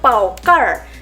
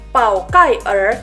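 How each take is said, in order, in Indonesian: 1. "Er" menyatu dengan suku kata sebelumnya. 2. "Er" diucapkan sebagai suku kata terpisah. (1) "kita bilangnya pao car" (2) "kita nggak bisa baca pao kai er"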